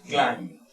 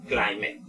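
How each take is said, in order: First: "climate" as one syllable, like "klaimd"; "climate" with no extra vowel after M; silent B. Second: "climate" read as spelled, like "KLAI-meh"; low, mistaken "climate" with an extra syllable; common mispronunciation. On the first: Shown as a demonstration. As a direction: model the correct "climate", going straight to M without B. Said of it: "realmente la B no se pronuncia". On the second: Retold or imitated. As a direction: imitate a learner's wrong "climate". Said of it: "Y muchos dirán".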